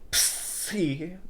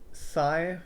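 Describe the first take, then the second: First: The word rhymes with 'knee', with an 'ee' vowel. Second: The word rhymes with 'high'. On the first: The speaker calls it right. "these letters are pronounced differently" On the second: The speaker calls it wrong. "how people say s- how this one is a sigh"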